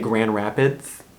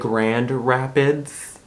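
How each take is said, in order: First: The D sounds are dropped from both words. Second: The D sounds are clearly pronounced in both words. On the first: This is how locals say it. The speaker calls it right. "We say Grand Rapids. Notice all the D's we don't say?" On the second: This is not how locals say it. The speaker calls it wrong. "We don't say Grand Rapids"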